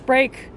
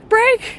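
First: The word is said calmly, without panic. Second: The word is said with panic in the voice.

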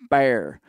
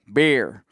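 First: The 'air' sound is stretched and emphasized. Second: It is said in a far northern accent. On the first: This is the speaker's own way of saying it. "I would say it like bear, like an emphasis on the air" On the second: This is how people far up north say it. "like way up north, they would be like"

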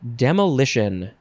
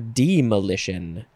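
First: The first syllable sounds like 'dem'. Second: The first syllable sounds like 'deem'.

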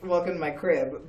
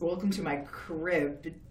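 First: It is said in a cheerful TV-host voice. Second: It is said in a spooky Crypt Keeper voice.

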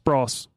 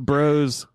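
First: The vowel is short, rhyming with Ross. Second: The vowel is long, rhyming with rose. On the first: "Bros is pronounced like Ross" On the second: "Though bros sounds so much better"

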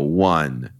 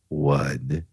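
First: It is said at a louder, normal volume. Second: It is said softly, at low volume.

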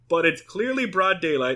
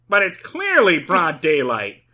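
First: It is said in a natural reading voice. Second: It is said in a put-on character voice.

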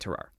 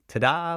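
First: The name is said in an English-like way. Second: The name is said in a French-like way. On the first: The speaker calls it wrong. "But I'm going to say Tarar" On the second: The speaker calls it right. "They sounded more like ta-da"

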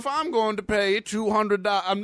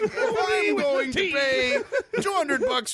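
First: It is said in the speaker's own voice. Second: It is said in an impersonated celebrity voice.

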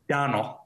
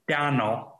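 First: The name is said at normal speed. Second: The name is said slowly and drawn out.

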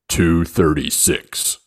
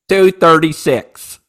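First: It is said in a deep, monotone voice. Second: It is said in a normal voice.

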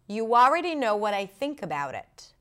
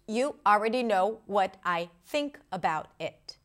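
First: The words are linked together smoothly, without breaks. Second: The words are said separately, with breaks between them. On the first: "when I connect the words together, this is how it sounds" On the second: "without connected speech, meaning if I separate the words"

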